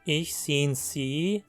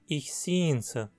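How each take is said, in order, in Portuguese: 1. O pronome é pronunciado por inteiro, com sua vogal. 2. O pronome é reduzido a uma sílaba fraca.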